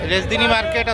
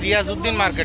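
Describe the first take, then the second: First: The name is clipped into a shorter local form. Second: The name is said in its full form. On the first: This is how local people say it. "চট্টগ্রামের মানুষরা উচ্চারণ করেন রেজদিনী market." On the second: This is the name's standard form. "Basically এটা রিয়াজউদ্দিন market"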